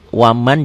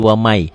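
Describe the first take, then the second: First: The final n sound is pronounced clearly. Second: The n merges into a following y sound. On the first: This is how the word is written. The speaker calls it wrong. "tulisannya waman" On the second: This is how the word is actually recited. The speaker calls it right. "Dibacanya jadi wamai"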